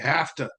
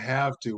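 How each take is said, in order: First: The two words are run together and reduced. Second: Both words are said clearly and separately. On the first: "We say have to" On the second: "most Americans don't usually say have to"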